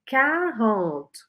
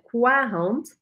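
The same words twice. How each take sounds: First: No w sound follows the first consonant. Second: A w sound follows the first consonant. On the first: The speaker calls it right. "é quarante" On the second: The speaker calls it wrong. "lembra de não falar o U, então não é quarante"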